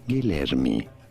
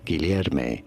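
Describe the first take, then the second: First: It is said with Portuguese pronunciation. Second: It is said with Spanish pronunciation. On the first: "in Portuguese, this is said as" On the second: "in Spanish, this is said as"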